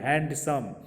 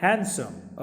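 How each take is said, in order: First: हैंडसम with a clear D sound; हैंडसम said "hand-sum"; wrong handsome. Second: हैंडसम as "hen-sum"; हैंडसम with a silent D; correct handsome. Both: Shown as a demonstration. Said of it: "हैंडसम नहीं बोलना है".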